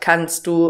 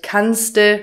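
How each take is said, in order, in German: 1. Beide Wörter werden getrennt und voll ausgesprochen. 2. Die beiden Wörter verschmelzen zu einer kurzen Form. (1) "statt kannst du" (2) "kannste statt kannst du"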